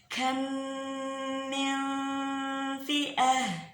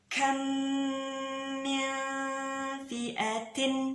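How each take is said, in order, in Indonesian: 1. Akhiran kata terakhir dimatikan. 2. Akhiran kata terakhir dibaca penuh. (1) "Kalau dimatikan langsung uh, fi'ah gitu ya" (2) "ini bacanya nggak usah dimatikan"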